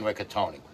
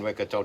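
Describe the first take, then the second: First: The final E of the name is pronounced. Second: The final E of the name is silent. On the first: The speaker calls it right. "you do pronounce the E at the end of his name" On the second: The speaker calls it wrong. "I've been calling him"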